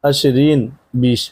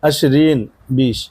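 No difference in how they are said.

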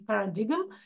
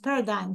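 First: The G is clearly sounded in the word. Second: The G is silent in the word. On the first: The speaker calls it wrong. "in the beginning, I would pronounce this as paradigm" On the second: The speaker calls it right. "no, in English it's pronounced paradigm"

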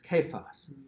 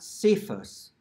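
First: The word begins with a hard K sound. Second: The word begins with a soft S sound. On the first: The speaker calls it right. "pronounced correctly with a hard C" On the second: The speaker calls it wrong. "not pronounced with a soft C"

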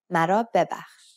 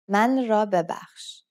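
First: The first part is merged into one word. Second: The first part is said as two separate words. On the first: This is how the phrase is usually spoken. "But you will always hear it as mara bebakhsh" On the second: This is how the phrase is written. "The proper way is من را ببخش"

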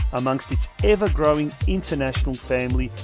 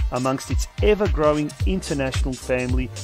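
The two takes are said the same way.

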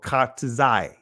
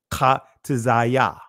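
First: The word ends without a final 'ya' syllable. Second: The word ends with an added 'ya' syllable.

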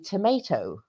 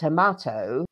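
First: It is said with an American accent. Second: It is said with a British accent. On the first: "American English say tomato" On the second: "In England, we say tomato"

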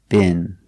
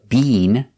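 First: The vowel is a short I sound. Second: The vowel is a long E sound. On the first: This is how it is said in America. "We make the short I, been" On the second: This is how it is said in England. "We don't use the long E, been. They do that in England"

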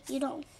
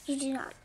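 First: It is said quickly with not shortened. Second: It is said slowly as three full words. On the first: "or quickly" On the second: "And we say"

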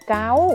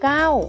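First: The syllable has a high tone. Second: The syllable has a falling tone. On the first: "เสียงตรีวรรณยุกต์ตรี" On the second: "เสียงโทใส่รูปวรรณยุกต์โทเก้า"

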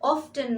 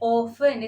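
First: The t sound is pronounced in the middle. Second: The t sound is left out entirely. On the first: The speaker calls it wrong. "অফটেন নয়" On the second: The speaker calls it right. "এর pronunciation হবে অফেন, এখানে টি silent থাকবে"

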